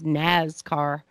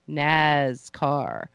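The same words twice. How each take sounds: First: The word is said with light emphasis. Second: The word is said with heavy emphasis.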